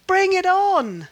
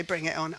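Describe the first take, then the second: First: Loud, high, drawn-out challenge; defiant call. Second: Said in the usual way. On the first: Retold or imitated. God defying trouble for her sake, loud challenge. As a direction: throw it out loud and slow. Climax of God's voiced challenge.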